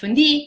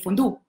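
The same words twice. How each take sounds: First: The vowel is a rounded front French u. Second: The vowel is a plain back oo sound. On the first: "Instead of fondue" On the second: "we pronounce U as U"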